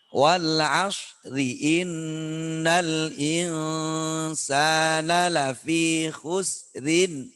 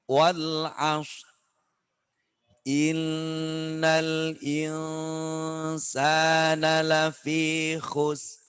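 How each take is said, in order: First: The verses run together without a stop between. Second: Each verse ends with a stop before the next. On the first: "Kalau biasanya kita bacanya begini" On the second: "Ini kalau dibaca per ayat"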